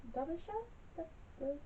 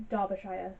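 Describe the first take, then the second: First: "Derbyshire" with a short "shuh" ending, high, soft and slow; unsure pronunciation. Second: "Derbyshire" ending like "shire", rhyming with "fire"; pronunciation attempt. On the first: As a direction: softly test "Derbyshire" as "Dar-buh-shuh", unsure. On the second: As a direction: say "Derbyshire" with a full "shy-er" ending. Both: Real, not acted. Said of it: "not very good with pronouncing".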